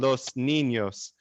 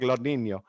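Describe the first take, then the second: First: It is said with the S sounds fully pronounced. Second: It is said with the S sounds dropped, southern Spain style.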